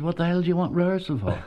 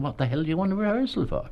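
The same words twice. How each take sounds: First: Higher, fast, scoffing disbelief; quick mocking scoff at a naive young actor; incredulous tough boss. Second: Higher, fast, scoffing disbelief; incredulous tough boss. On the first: Tough Dublin manager scoffing at the young actor's rehearsal request, higher and fast. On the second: Retold or imitated. Manager repeats his scoff at the actor, higher and fast. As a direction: toss off the question with a scoff. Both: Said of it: "this terribly tough Dublin man called Fred".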